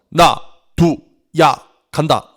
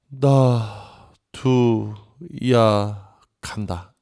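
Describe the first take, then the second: First: It is said firmly, with strong resolve. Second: It is said grudgingly, with unwillingness. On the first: The speaker is firmly resolved to leave. "뭔가 이렇게 강한 단호한 의지" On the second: The speaker leaves but does not want to go. "가고 싶은 게 아니라 가지 못해서 가기가 싫어서"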